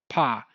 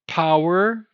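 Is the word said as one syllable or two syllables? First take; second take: one; two. First: The word is reduced to one long 'ah' syllable. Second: The word is said as two full syllables. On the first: "it's pa. They just apparently just reduce everything" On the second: "Instead of power"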